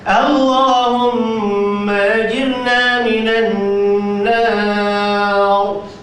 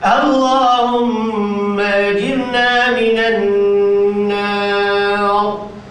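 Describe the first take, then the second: Both takes have the same delivery.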